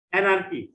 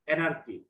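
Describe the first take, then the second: First: অ্যানার্কি said clearly, "A-nar-ki", stress on the first syllable; teacher modelling অ্যানার্কি to the class; অ্যানার্কি modelled up and clear; model pronunciation. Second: Said in the usual way. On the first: Shown as a demonstration. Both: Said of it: "try to pronounce the words correctly".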